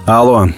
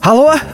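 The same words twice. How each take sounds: First: The voice is lower and rougher. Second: The voice is high, falsetto and trembling. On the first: The speaker is trying to sound tough. The speaker calls it right. "повторил более грубым голосом" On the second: The speaker is nervous. The speaker calls it wrong. "Мой голос дрожит и удивительно фальцетом прозвучал"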